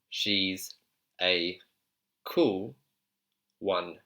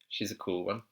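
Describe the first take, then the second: First: The phrase is said slowly and deliberately. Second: The phrase is said at natural conversational speed.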